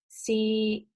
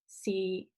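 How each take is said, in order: First: It is said in Cantonese tone three. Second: It is said in Cantonese tone six.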